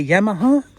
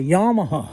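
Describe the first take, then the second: First: YAMAHA with a short "yam" first syllable; own-country Yamaha. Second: YAMAHA with a broad "yah" first syllable; American Yamaha. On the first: Vlogger showing how his countrymen say it, short-a pronunciation. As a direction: say Yamaha as YAM-a-ha, rising at the end. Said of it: "we say Yamaha". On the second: Vlogger showing how Americans say it, broad-a pronunciation. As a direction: say Yamaha as YAH-ma-ha, falling at the end. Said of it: "I notice Americans say Yamaha". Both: Shown as a demonstration.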